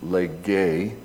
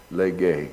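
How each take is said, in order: First: Lege, leh-gay with a lift on the end; Greek Lege. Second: Lege, both syllables clear, leh-gay; Greek lege. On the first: Preacher repeating the Greek word, rising at the end. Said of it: "the E I end on it". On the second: Preacher teaching the Greek word, spelled out slowly. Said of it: "That's the word to speak". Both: Shown as a demonstration.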